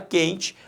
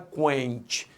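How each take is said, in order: First: The U after the Q is silent. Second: The U after the Q is pronounced. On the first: The speaker calls it right. "Quando ele não é pronunciado ... você fala quente" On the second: The speaker calls it wrong. "Você não fala quente"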